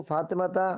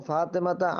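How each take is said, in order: No difference in how they are said.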